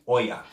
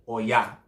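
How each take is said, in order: First: The stress is on the first syllable. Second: The stress is on the last syllable. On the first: The speaker calls it wrong. "It's not Oya" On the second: The speaker calls it right. "Emphasis on the A"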